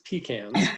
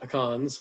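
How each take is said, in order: First: It is said a non-Californian, regional way. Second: It is said the usual Californian way. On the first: The speaker calls it right. "It's pecans" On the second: The speaker calls it wrong. "like we say out here in California"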